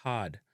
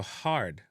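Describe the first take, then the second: First: HARD as "haad", long A and no R; Jamaican pronunciation. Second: HARD with the R sounded; English-style "harrd"; English pronunciation. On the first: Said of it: "replace it with the extended". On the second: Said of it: "extended R sound". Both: Shown as a demonstration.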